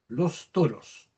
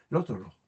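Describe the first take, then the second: First: The s sounds are fully and clearly pronounced. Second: The s sounds are weakened to a breathy sound. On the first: "Si lo pronunciamos de manera esmerada" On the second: "No pronunciamos esperadamente los toros, sino que"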